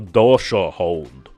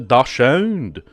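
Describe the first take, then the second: First: It is said in a Russian accent. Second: It is said in a French accent. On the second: "How would a French person say it?"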